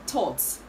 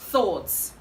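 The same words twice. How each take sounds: First: The word begins with a plain t sound. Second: The word begins with a soft th sound. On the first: The speaker calls it wrong. "This word is commonly pronounced thoughts" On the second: The speaker calls it right. "the right to pronounce this word is thoughts"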